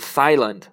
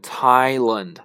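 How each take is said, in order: First: The word begins with a th sound. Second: The word begins with a plain t sound. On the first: The speaker calls it wrong. "我们不能读Thailand" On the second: The speaker calls it right. "必须要读Thailand"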